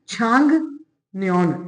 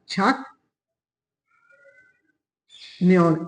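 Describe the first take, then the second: First: The first syllable ends with an ng sound. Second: The first syllable ends with a k sound. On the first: The speaker calls it right. "इसको पढ़ते हैं छांग नियॉन" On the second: The speaker calls it wrong. "इसको छक की बजाय"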